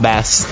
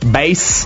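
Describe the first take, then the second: First: It is pronounced like the fish. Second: It is pronounced like the low musical sound. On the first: The fish is meant. The speaker calls it wrong. "not a fish" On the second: The low musical tone is meant. The speaker calls it right. "Bass, not bass"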